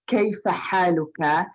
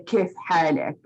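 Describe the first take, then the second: First: It is said in formal Standard Arabic. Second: It is said in Jordanian dialect.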